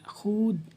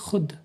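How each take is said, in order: First: The vowel is long, with a full waw sound. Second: The vowel is short, with a silent waw. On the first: The speaker calls it wrong. "खावा पे खू और दाल साकिन है खूद" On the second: The speaker calls it right. "लेकिन हम पढ़ेंगे खुद"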